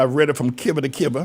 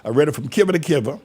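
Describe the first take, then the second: First: "kiver" said for cover, like in North Carolina. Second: "kiver" for cover, quick Carolina country way; North Carolina kiver. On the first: Preacher shows Carolina saying, "kiver to kiver". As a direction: say "kiver" with a short i, old Carolina way. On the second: Preacher repeats Carolina saying, "kiver" for cover. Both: Shown as a demonstration. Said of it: "that's how they say it down in North Carolina".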